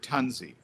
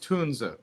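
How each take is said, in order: First: The name is pronounced the English way. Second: The name is pronounced the German way. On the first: This is how English speakers tend to say it. The speaker calls it wrong. "native English speakers said Tunzi. It's just kind of the English phonetics" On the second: This is the correct original pronunciation. The speaker calls it right. "correct German is Tunze"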